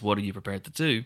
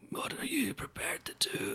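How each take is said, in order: First: It is said forcefully and angrily. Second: It is said quietly and softly.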